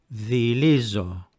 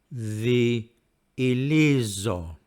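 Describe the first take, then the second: First: The word is said quickly, vowels blending smoothly. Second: The word is said slowly, vowels slightly apart. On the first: "And now speaking at normal speed" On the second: "Speaking slowly again"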